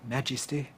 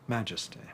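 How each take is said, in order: First: The middle syllable has a clear 'i' vowel. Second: The middle syllable has a reduced, weak vowel. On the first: This is an old-fashioned pronunciation. "using I in a word like" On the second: This is the modern pronunciation. "where we might now say majesty"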